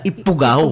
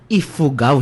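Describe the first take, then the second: First: The middle consonant is a p sound. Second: The middle consonant is an f sound. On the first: The speaker calls it wrong. "hindi sila" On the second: The speaker calls it right. "ang tamang tawag sa kanila ay"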